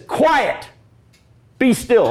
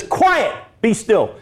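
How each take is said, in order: First: High, firm command to the storm; commanding Jesus. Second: Commanding Jesus. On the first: Preacher voicing Jesus calming the storm, commanding. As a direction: rebuke the wind with authority. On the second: Preacher repeats Jesus rebuking the waves, commanding. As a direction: order the sea to calm. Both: Acted.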